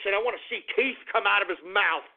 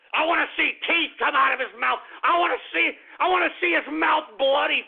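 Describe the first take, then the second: First: Said in the usual way. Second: Angry outburst. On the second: Acted. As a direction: blow up on the repeat. Repeats the threat, louder.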